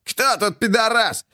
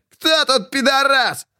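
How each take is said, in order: First: High, slow growling taunt; a slow, menacing growl of victory. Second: Very high, slow roaring taunt; roared taunt. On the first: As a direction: snarl it down at the beaten rival. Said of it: "лишь замахивался и рычал". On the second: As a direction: roar the question in triumph. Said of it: "рычал". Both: A narrator's reading.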